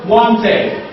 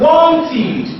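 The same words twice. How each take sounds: First: "wanted" said the way it should not be said; the mistaken reading of "wanted"; teacher models the wrong form of "wanted"; wrong pronunciation. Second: "wanted" said as WANT-id, with a clear extra syllable; teacher models "wanted" with the id ending; correct pronunciation. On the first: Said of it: "not wanted". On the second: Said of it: "this word is now pronounced wanted". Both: Shown as a demonstration.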